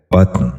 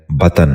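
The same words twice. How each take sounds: First: بطن as one syllable, batn, with t and n run together; correct pronunciation. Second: بطن split into two syllables as batan; wrong pronunciation. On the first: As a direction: close بطن with no vowel between t and n: batn. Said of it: "درست تلفظ ہے". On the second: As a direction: say بطن with an extra vowel between t and n: batan. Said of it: "یہ غلط تلفظ ہے". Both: Shown as a demonstration.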